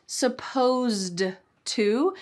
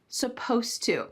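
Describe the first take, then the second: First: The ed sound at the end is pronounced. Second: The ed sound at the end is dropped. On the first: The speaker calls it wrong. "It's not supposed to" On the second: The speaker calls it right. "we kind of cut off that ed and just say supposed to"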